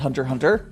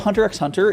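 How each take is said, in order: First: The middle X is left silent. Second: The middle X is spoken aloud.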